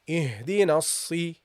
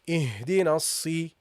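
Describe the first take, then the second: The two takes are said the same way.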